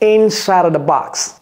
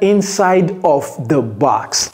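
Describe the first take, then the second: First: The word 'of' is reduced to a weak 'a'. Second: The word 'of' is pronounced fully and clearly. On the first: "vous voyez comment j'ai prononcé cela?" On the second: "J'ai pas dit"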